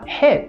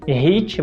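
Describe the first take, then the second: First: It starts with a harsh sound, no vibration. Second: It starts with a vibrating, voiced sound. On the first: The speaker calls it right. "você deve falar" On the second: The speaker calls it wrong. "Ao invés de"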